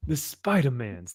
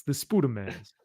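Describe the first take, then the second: First: Said in the usual way. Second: Spoodermans with a goofy oo sound; silly mispronunciation. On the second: Shown as a demonstration. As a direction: say Spoodermans like a meme. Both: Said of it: "the Spoodermans".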